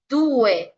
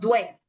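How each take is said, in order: First: Each vowel is pronounced clearly and separately. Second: The two vowels are run together into one. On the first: The speaker calls it right. "vocal por vocal" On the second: The speaker calls it wrong. "y no due"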